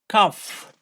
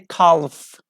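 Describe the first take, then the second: First: The L is silent in the word. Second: The L is sounded in the word. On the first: The speaker calls it right. "So L isn't pronounced" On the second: The speaker calls it wrong. "We don't say calf. Calf is wrong"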